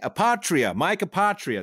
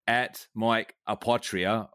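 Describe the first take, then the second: First: It is said in a put-on voice. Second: It is said in his normal voice.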